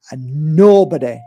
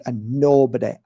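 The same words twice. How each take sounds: First: "nobody" said louder, pushed; emphatic nobody. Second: Said in the usual way. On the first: Real, not acted. Insisting nobody may silence people: louder "nobody". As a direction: lean hard on "nobody".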